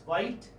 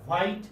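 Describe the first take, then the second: First: "white" as the model pronunciation; corrected white. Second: "white" as the wrong version; mispronounced white. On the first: Teacher corrects the sound for students, model "white". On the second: Teacher shows students the wrong sound, mispronounced "white". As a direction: say "white" the way being corrected. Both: Shown as a demonstration. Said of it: "It's not white".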